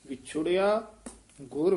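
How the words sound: A short pause comes after the first word. The speaker calls it right. "ਵਿਛੋੜਿਆ ਤੇ ਯਮਕ ਲਾਉਣੀ ਹੈ"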